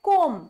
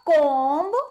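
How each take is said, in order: First: The word ends with an m sound only. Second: The word ends with an audible b sound. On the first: The speaker calls it right. "सिर्फ म, इसमें बी क्या है, silent" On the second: The speaker calls it wrong. "Not कोम्ब, कोम्ब नहीं होता"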